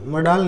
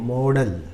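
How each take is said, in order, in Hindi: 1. पहला स्वर छोटा है, 'mod' जैसा। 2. पहला स्वर लंबा है, 'mode' जैसा।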